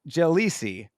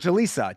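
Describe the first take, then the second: First: The name ends with an 'ee' sound. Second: The name ends with an 'ah' sound. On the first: "there is an I at the end of that name" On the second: "Jalisa is how they were pronouncing it on the commentary"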